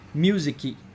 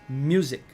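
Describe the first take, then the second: First: An extra vowel is added at the end. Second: The word ends on a consonant sound. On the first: "you can notice me saying musicy" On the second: "when I'm pronouncing the word music"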